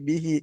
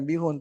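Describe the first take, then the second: First: The word ends with an 'in' sound. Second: The word ends with an 'un' sound. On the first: The speaker calls it right. "tapi bihi" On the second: The speaker calls it wrong. "bukan bihun"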